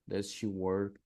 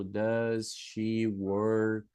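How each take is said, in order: First: Said in the usual way. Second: "Does she work?" stretched very slowly, word by word; slow model sentence. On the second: Shown as a demonstration. Teacher spells out the question for her class, very slowly. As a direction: drag out "Does she work?" so pupils catch every word. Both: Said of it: "Por exemplo".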